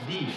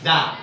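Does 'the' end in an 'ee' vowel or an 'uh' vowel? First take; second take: ee; uh. First: The word ends in a long 'ee' vowel. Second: The word ends in a short 'uh' vowel. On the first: "কখন আমরা দি বলবো" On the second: "কখন আমরা দা বলবো"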